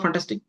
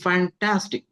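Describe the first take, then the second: First: The word is said flatly with little energy. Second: The word is said with lively, enthusiastic energy. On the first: The praise does not carry real feeling. The speaker calls it wrong. "Fantastic is not fantastic" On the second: The praise carries the feeling of the word. The speaker calls it right. "let the pitch and sound of the appreciation be passed on"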